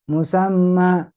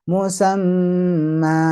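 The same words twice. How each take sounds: First: The final vowel is pressed and cut short. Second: The final vowel is held for two full counts. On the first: The speaker calls it wrong. "jangan ditekan, kesannya dari hamzah atau harokatnya dari kurang" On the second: The speaker calls it right. "dua harokatnya tegas ya"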